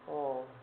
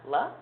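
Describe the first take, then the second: First: The L sound is said with no vowel. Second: The L sound is followed by a vowel. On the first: The speaker calls it right. "it's a l" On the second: The speaker calls it wrong. "an L isn't a la"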